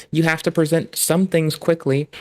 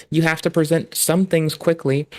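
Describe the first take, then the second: No difference in how they are said.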